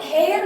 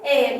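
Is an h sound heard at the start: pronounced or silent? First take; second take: pronounced; silent. First: The word begins with an audible h sound. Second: The word begins with a vowel, no h. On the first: The speaker calls it wrong. "इसको एयर नहीं पढ़ते" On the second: The speaker calls it right. "एच silent है"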